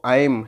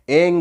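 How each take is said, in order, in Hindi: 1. शब्द m की आवाज़ से खत्म होता है। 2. शब्द ng की आवाज़ से खत्म होता है। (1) "माँ माँ का साउंड" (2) "अंगा का साउंड"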